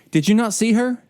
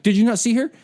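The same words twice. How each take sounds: First: Sharp, louder scolding; indignant sergeant scolding, raised; aggressive rebuke. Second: Sharp, louder scolding again retold; indignant sergeant rebuke, louder; aggressive rebuke. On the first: Retold or imitated. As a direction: snap at him like an angry sergeant. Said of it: "she points in this aggressive way". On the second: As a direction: scold him like the sergeant did. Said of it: "She was like".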